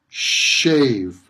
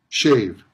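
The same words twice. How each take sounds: First: The sounds are stretched out longer than usual. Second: The sounds have their usual everyday length. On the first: "I'm making the sounds longer than they usually are" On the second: "in everyday pronunciation"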